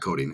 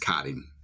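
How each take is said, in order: First: The vowel sounds like the one in 'coat'. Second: The vowel sounds like the one in 'cot'. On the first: The speaker calls it wrong. "It's not coating" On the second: The speaker calls it right. "it's cotting"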